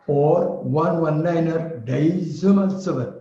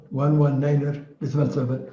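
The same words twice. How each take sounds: First: One one niner decimal seven read slowly, stressing decimal; beautiful readout. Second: Said in the usual way. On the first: Shown as a demonstration. Teacher showing the beautiful version of the frequency. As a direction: linger on decimal, slow and melodic. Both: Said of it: "Which one is beautiful".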